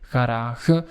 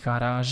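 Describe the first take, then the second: First: The last G is a harsh Dutch throat sound. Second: The last G is a soft French zh sound. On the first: The speaker calls it wrong. "if it would be Dutch, we would say garage" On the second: The speaker calls it right. "we pronounce that last G as a French G"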